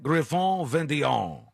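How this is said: The name is said with an exaggerated French accent. "So that's just really channeling that"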